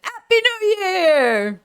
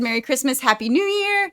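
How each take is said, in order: First: High, slow, sing-song Happy New Year; repeating her cheerful sign-off in a sing-song voice; festive greeting. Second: Festive greeting. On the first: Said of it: "That's why I said, "Happy New Year". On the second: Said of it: "Like I said". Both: Shown as a demonstration.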